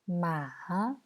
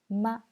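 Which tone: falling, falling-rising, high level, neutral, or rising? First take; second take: falling-rising; neutral. First: The pitch dips low, then rises again. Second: The pitch is short, light and unstressed. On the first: "Troisième ton"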